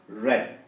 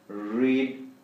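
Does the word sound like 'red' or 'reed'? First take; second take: red; reed. First: The vowel is short, like 'red'. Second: The vowel is long, like 'reed'. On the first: It is the past participle. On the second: It is the present tense.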